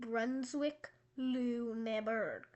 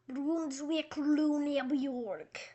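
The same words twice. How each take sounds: First: It is said in a plain English accent. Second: It is said in a put-on German accent.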